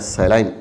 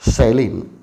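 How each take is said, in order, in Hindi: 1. यह शब्द ब्रिटिश उच्चारण में बोला गया है। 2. यह शब्द अमेरिकी उच्चारण में बोला गया है। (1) "यह ब्रिटिश इंग्लिश के अनुसार बोला जाता है सैलाइन" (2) "अमेरिकन इंग्लिश में इसका उच्चारण हो जाता है सैलिन"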